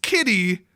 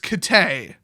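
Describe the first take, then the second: First: The name ends with an 'ee' sound. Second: The name ends with an 'ay' sound. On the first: The speaker calls it wrong. "it's not pronounced kitty" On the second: The speaker calls it right. "it's Kitay"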